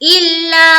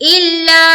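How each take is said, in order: No difference in how they are said.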